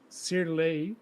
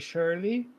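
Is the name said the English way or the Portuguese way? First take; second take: Portuguese; English. First: The name is said with a Portuguese pronunciation. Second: The name is said with an English pronunciation. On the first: "in Portuguese. I, if I get the pronunciation correctly" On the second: "here in Canada, people say"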